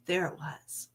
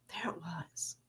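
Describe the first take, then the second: First: Quiet realization. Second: Breathy whisper, unvoiced, spoken close; whispered realization. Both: Shown as a demonstration.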